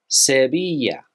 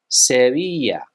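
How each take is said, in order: Both takes have the same delivery.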